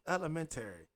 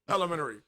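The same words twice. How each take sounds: First: The word is said at an unhurried pace. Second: The word is said very quickly. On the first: This is the speaker's own way of saying it. "my Chicago friends hate that I say it like this" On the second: This is how Chicago friends say it. "They say it quick as fuck"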